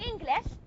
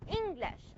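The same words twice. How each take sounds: First: The ng is followed by a hard g. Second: The ng has no separate hard g. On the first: The speaker calls it wrong. "You're not studying English" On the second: The speaker calls it right. "You're studying English"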